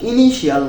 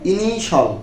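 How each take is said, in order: First: The ending is two syllables, 'shi-al'. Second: The ending is one syllable, 'shal'. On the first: The speaker calls it wrong. "ইনিশিয়াল না বলে" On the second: The speaker calls it right. "বলবো ইনিশাল"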